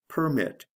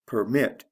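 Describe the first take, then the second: First: "permit" as the noun PER-mit; PER high, then falling in "permit"; stress on first syllable. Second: "Permit" as the verb per-MIT; stress on second syllable. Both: Shown as a demonstration. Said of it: "Notice the stress changes in the same way".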